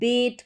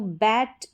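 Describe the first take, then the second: First: The vowel is an e sound. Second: The vowel is an open a sound. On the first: The speaker calls it wrong. "अब इसको आप बेट करके नहीं पढ़ सकते, गलत उच्चारण हो जाएगा" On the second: The speaker calls it right. "यहाँ पर जो ए है इसका उच्चारण ए करके हो रहा है"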